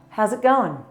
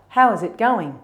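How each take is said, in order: First: The words are contracted and run together. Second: Each word is said fully and separately. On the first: The greeting is casual. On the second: The greeting is more formal.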